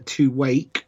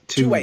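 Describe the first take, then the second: First: The name ends with a k sound. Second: The name ends without a k sound. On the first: "The Q is at the end" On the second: "I don't believe you pronounce the Q"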